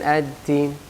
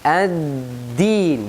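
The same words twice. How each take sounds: First: The consonant is weak and sounds like t. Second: The consonant is a strong, clear d sound. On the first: The speaker calls it wrong. "bukan ad-din, ad-din seperti ta" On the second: The speaker calls it right. "harus kita baca jelas dan keras"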